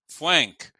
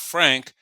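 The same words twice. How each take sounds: First: The name is said with a W sound for R. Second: The name is said with a normal R sound. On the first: "That's the way they call me. They substitute the R for the uh with a W" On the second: "Not Frank"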